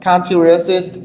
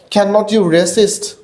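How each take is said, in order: First: The negative is said as one contracted word. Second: The negative is said as two separate words. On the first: "short form উচ্চারণ করো তাহলে হবে কান্ট" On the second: "ক্যান নট উচ্চারণ করতে পারো যদি আলাদা আলাদা ভাবে উচ্চারণ করো"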